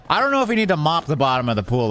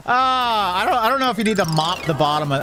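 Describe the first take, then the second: First: Said in the usual way. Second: Higher and fast, giggling; laughing at the janitor mopping the pool bottom. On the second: Real, not acted. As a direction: stammer it out while laughing. Still laughing, then repeats composed.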